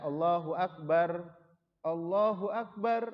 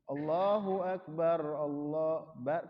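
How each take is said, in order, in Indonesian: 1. Jeda untuk bernapas memisahkan kedua frasa. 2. Kedua frasa diucapkan dalam satu tarikan napas. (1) "jadi tidak Allahu Akbar, Allahu Akbar. Nah, berhenti di yang pertama, enggak" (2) "tapi digabung"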